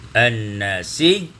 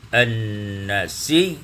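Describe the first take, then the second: No difference in how they are said.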